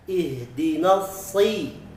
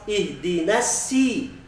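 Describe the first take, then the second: First: The s is heavy and thick. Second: The s is light and thin, like plain s. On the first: The speaker calls it right. "tapi usahakan ihdinasi si" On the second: The speaker calls it wrong. "Tidak boleh membacanya seperti sin"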